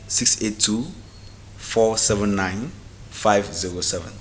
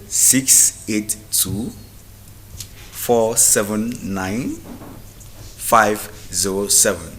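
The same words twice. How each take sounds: First: The number is said at normal speed. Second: The number is said slowly.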